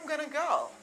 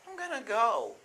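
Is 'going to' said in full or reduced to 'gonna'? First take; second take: reduced; reduced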